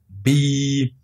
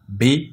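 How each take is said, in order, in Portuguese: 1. A vogal é longa. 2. A vogal é curta. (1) "essa vogal kasra pode ser prolongada através da escrita da letra ya" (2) "sem nenhum prolongamento"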